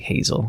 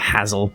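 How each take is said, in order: First: The first syllable sounds like the one in hazelnut. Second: The first syllable sounds unlike the one in hazelnut. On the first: The speaker calls it right. "I sh- probably should say Hazel" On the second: The speaker calls it wrong. "I've been saying Hazel, which is completely wrong"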